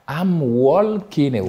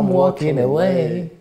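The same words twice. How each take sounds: First: The L in walking is clearly pronounced. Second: The L in walking is left silent. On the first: The speaker calls it wrong. "on n'entend pas I'm walking away" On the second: The speaker calls it right. "on entend I'm walking away"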